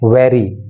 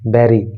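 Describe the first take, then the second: First: The word starts with a v sound. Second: The word starts with a b sound. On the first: The speaker calls it right. "वेरी वेरी यानी कि वे आना चाहिए" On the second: The speaker calls it wrong. "बैरी बैरी ऐसे नहीं बोलना"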